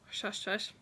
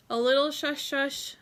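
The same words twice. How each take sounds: First: A quiet slowed shush shush; hushed shush. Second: Said in the usual way. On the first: Shown as a demonstration. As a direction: drop to a secretive hush on shush shush. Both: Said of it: "hush hush".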